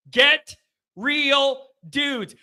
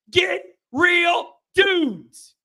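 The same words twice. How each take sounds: First: "Get", pause, "real dudes" falling away; spaced-out repeat. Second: GET, REAL, DUDES very slow and high; emphatic demand. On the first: Repeats the demand less forcefully. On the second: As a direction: stretch "Get real dudes" word by word, pitch raised. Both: Real, not acted.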